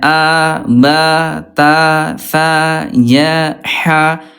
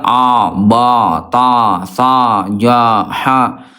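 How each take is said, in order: First: The vowels are open but relaxed, like smiling. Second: The vowels are said with an exaggerated open mouth. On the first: The speaker calls it right. "seperti orang yang sedang tersenyum" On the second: The speaker calls it wrong. "itu terlalu terbuka"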